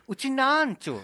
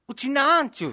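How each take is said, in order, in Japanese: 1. 音は上がらず、低いままです。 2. 音は最後に向かって上がります。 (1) "ずっとうちなんちゅって教えてるんですけど" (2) "上がってるから うちなーって上がってるから"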